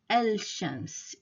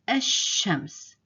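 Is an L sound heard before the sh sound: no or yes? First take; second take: yes; no. First: An L sound is heard before the sh. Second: The L is dropped and the sh doubled. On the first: The speaker calls it wrong. "it's difficult to say al-shams" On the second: The speaker calls it right. "I didn't pronounce the lam"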